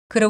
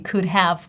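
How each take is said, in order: First: The words blend into one reduced word. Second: Both words are said in full. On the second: "We don't say could have"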